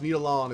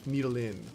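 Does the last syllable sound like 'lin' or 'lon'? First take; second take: lon; lin. First: The last syllable sounds like 'lon'. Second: The last syllable sounds like 'lin'. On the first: The speaker calls it wrong. "It's not pronounced Needlon" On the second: The speaker calls it right. "it's Needlin"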